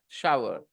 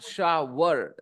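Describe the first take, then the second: First: The middle has no w sound. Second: The middle has a clear w sound. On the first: The speaker calls it right. "He had a shower" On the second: The speaker calls it wrong. "but not shower. There is no were sound"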